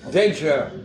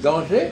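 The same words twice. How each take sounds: First: The word is pronounced the English way. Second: The word is pronounced the French way. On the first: "En anglais, on dit comment? ... Non. Danger" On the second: "En français, on dit danger"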